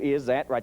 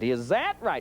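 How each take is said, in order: First: The pitch stays flat on 'that'. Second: The pitch goes up on 'that'.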